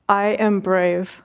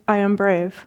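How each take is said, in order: First: It is said warmly, with deep feeling. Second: It is said flatly, without feeling. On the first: The words come from the heart. "With your heart" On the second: The words come only from the mouth. "just from your lips"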